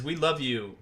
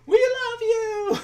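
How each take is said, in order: First: Said in the usual way. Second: Very high, loud, drawn-out mock scream; slow, piercingly high fangirl shriek, hammed-up. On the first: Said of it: "literally the way she writes it is". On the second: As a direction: imitate an adoring fan screaming from the back. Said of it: "this woman just screaming".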